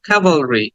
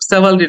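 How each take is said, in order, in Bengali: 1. শব্দটা k sound দিয়ে শুরু। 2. শব্দটা s সাউন্ড দিয়ে শুরু।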